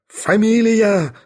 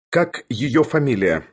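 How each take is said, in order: First: High, drawn-out roar. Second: Said in the usual way. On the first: A narrator's reading. Bormental demands her surname from Sharikov, roaring. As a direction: roar the word out slowly at high pitch. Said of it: "заревел он". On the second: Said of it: "спросил у него Барменталь".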